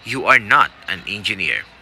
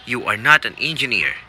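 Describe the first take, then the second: First: Said in the usual way. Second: Even, formal prompt read of "You are not an engineer."; test recording voice. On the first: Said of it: "And you say". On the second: Shown as a demonstration. Coach voicing the test's prompt recording, formal. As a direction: say it as the exam recording would. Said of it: "a voice says".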